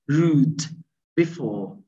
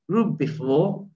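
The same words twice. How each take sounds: First: The d of rude is clearly pronounced. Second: The d of rude blends into the b. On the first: "if we just pronounce these words separately" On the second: "when you just use this inflection and G intonation, it will turn to be"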